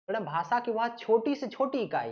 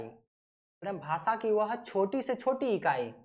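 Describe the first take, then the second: First: Said in the usual way. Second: Slower, leaning on छोटी से छोटी; slow emphatic repeat. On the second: Shown as a demonstration. Teacher repeating the definition for students, slow and deliberate. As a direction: spell it out slowly for the class, hitting छोटी.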